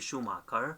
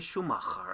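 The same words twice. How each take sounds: First: The name is said with an English pronunciation. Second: The name is said with a German pronunciation. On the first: "I know in English they're going to be Schumacher" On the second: "just like in German language, they say Schumacher"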